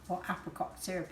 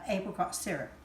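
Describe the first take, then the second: First: It is said with an American pronunciation. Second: It is said with a British pronunciation.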